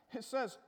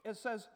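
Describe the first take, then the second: No difference in how they are said.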